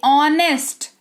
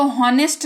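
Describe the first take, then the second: First: ऑनेस्ट said slowly, no h; ऑनेस्ट, silent h. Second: हॉनेस्ट with the h sounded; हॉनेस्ट, h pronounced; wrong reading. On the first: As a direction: open ऑनेस्ट on the vowel. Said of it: "अब आप इसको ऑनेस्ट पढ़ोगे". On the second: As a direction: say हॉनेस्ट with a breathy h. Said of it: "इसको हॉनेस्ट नहीं". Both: Shown as a demonstration.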